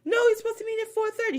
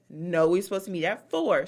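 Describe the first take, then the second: First: High, quick put-on protest; Dorit's fake mixed accent. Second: Louder, at a normal pitch; firm correction. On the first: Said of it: "every time I do her impression". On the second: Retold or imitated. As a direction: correct them firmly in your own voice. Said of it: "She said".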